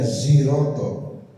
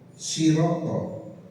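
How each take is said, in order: First: The word starts with a buzzing z. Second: The word starts with a light, plain s. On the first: "dengan za" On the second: "pakai sin"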